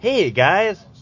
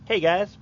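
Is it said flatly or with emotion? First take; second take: with emotion; flatly. First: It is said with more emotion. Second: It is said flatly, with little emotion.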